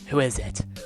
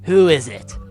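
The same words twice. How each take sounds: First: It is said in the speaker's normal voice. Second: It is said in a put-on character voice.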